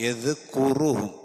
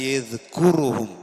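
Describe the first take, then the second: No difference in how they are said.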